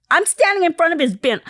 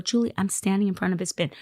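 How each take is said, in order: First: High, loud disbelief, retold; acting out a stunned phone reply; astonished exclamation. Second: Said in the usual way. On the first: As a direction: blurt it out loudly, pitch way up.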